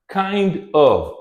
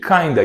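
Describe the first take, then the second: First: The word 'of' is pronounced in full. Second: The 'of' shrinks to a short 'a' sound. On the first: "here we have kind of" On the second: "this reduction kinda"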